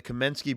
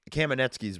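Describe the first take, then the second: First: Kamensky said wrong, missing the middle syllable; mispronounced name. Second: Kamenetsky's with the full middle syllable; corrected name. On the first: Naming the brothers' show, a slip: Kamensky. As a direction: slip out Kamensky before correcting it. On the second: Correcting himself on the brothers' show name: Kamenetsky's. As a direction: fix it to Kamenetsky's. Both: Real, not acted. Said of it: "excuse me".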